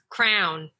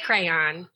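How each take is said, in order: First: The word is said as crown. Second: The word is said as crayon. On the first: "Sean says crown. That's a Philadelphia thing" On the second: "I say crayon"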